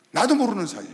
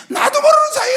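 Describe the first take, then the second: First: Said in the usual way. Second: Much higher, much louder repeated phrase; preaching shout. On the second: Real, not acted. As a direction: cry it out at full force. (나도 모르는 사이에를 크게 외치는 설교)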